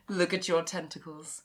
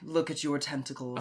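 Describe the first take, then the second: First: A weak, half-hearted imitation of the character's voice. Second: A full, committed imitation of the character's voice. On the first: The speaker calls it wrong. "I gotta do the voice better" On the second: The speaker calls it right. "I gotta do the voice better"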